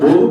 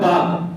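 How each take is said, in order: First: The vowel is pronounced as 'o'. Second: The vowel is pronounced as 'a'. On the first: The speaker calls it wrong. "तो क्या उसको बोग पड़ता है क्या कोई?" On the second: The speaker calls it right. "बाग होता है बाग"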